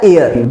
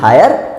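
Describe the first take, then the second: First: The starting h sound is silent. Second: The starting h sound is pronounced. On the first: The speaker calls it right. "इसे बोलेंगे एयर" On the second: The speaker calls it wrong. "इसे हायर ना पढ़ना यार"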